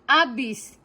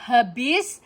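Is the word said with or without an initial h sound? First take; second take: without; with. First: The word begins directly with a vowel. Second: The word begins with an h sound. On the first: The speaker calls it wrong. "bukan abis" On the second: The speaker calls it right. "lalu habis"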